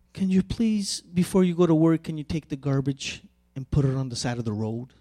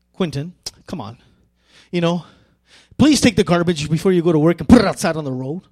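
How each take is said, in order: First: Soft, quiet, kindly asking; gentle polite request. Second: Brisk, pushy, fast request; impatient demand. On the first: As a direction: ask softly and nicely. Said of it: "That's one way of saying a communication. The tone is different". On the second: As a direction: rush him, a little annoyed. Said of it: "Same words, but two different tones". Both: Shown as a demonstration.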